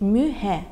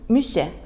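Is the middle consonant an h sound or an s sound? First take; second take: h; s. First: The middle consonant is an h sound. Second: The middle consonant is an s sound. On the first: This is the Yakut form of the name. "По-якутски звучит мюхе" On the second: This is the Russianized form of the name. "Следующее блюдо мюсе"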